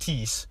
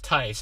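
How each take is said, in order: First: The vowel sounds like 'ee'. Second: The vowel sounds like 'eye'. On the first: This is a guess at the name from its spelling. The speaker calls it wrong. "and I pronounce it Teese" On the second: This is the name's actual pronunciation. The speaker calls it right. "your last name's Tice"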